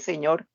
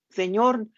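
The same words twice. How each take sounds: First: Soft longing. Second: Higher, urgent cry of the name; frantic call. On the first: Believer turning to the Lord next morning, soft. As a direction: call him quietly, with longing. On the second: Believer crying to the Lord in the storm, frantic. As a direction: call out as the boat sinks. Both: Acted.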